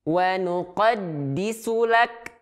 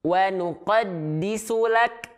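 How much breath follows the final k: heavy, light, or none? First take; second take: light; light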